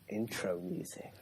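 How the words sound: It is said in a seductive way.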